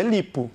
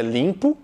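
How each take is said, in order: First: LIPO with no nasal sound in the I; oral I. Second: LIMPO with a nasalised first vowel; nasal I. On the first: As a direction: keep LIPO's I purely oral. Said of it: "se você tira a nasalização". ("lipo" sem nasalização) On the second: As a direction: send LIMPO's I through the nose. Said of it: "esse I com som nasal". ("limpo" com I nasal) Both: Shown as a demonstration.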